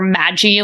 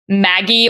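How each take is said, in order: First: It sounds like magic without the c. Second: It sounds like the name Maggie. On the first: "like magic" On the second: "pronounced like Maggie"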